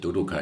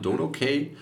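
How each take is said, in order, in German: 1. Das finale K wird wie deutsch „kah-ee“ ausgesprochen. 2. Das finale K wird wie englisch „kay“ ausgesprochen. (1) "die meisten sagen natürlich Dodokai" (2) "ich habe jahrelang das selber auch Englisch ausgesprochen"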